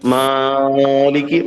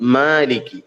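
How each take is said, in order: First: The first vowel is stretched out very long. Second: The first vowel is lengthened only slightly. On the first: The speaker calls it wrong. "മാലിക്ക് പറയേണ്ട ആവശ്യമില്ല" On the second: The speaker calls it right. "അല്പം നീട്ടി പറയണം"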